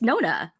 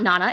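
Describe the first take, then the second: First: The first vowel is a rounded 'oh' sound. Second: The first vowel is an open 'ah' sound. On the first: The speaker calls it right. "it's Nona" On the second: The speaker calls it wrong. "it's not Nana"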